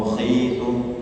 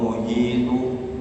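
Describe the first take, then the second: First: The consonant is a rasping kh. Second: The consonant is a light breathy h. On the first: "jangan terlalu tinggi menjadi kha" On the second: "jangan terlalu rendah menjadi ha"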